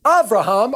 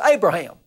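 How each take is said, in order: First: "Abraham" said AH-bra-hahm, open first vowel; Abraham the Hebrew way, AH-bra-hahm; Hebrew-style Abraham. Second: "Abraham" said AY-bra-ham, English style; English Bible reading, AY-bra-ham; King James Abraham. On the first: Pastor reading the Messiah's words to listeners, Hebrew-style Abraham. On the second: Pastor contrasting the King James reading, English AY-bra-ham. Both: Shown as a demonstration. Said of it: "or as the King James says".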